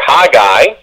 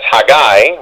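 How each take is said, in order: First: The stress is on the first syllable. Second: The stress is on the second syllable. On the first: "with an emphasis on the H-A" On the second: "with an emphasis on the G-G-A-I"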